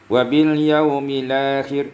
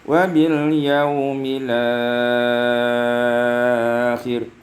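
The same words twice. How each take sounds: First: The long vowel is held for two counts. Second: The long vowel is held for six counts. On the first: "dua harakat" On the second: "isba', enam harakat"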